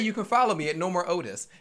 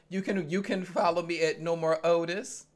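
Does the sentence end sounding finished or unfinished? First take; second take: finished; unfinished. First: The pitch falls, sounding finished. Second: The pitch stays up, sounding unfinished. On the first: The speaker is done talking. "you don't say you can follow me at No More Otis. And that shows that you're done" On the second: The speaker seems to have more to say. "His inflection never feels like he's done. So you say"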